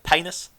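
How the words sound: It is said with an A vowel, Adelaide-style.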